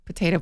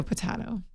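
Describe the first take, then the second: First: "Potato" with a long "tay"; potato, usual way. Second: "potato" with an open "tah"; potato, alternate way. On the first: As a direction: say "Potato" as puh-TAY-toh. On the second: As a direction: say "potato" as puh-TAH-toh. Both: Shown as a demonstration. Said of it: "Do people say potato?".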